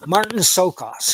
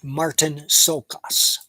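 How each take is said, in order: First: Said in the usual way. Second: Slow, halting name read off fine print. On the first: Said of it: "I'll find it for you real fast". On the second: Real, not acted. Reviewer reading the actor's name off small print, slow and halting. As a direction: sound it out slowly while squinting at the type. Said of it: "I can't read this type here".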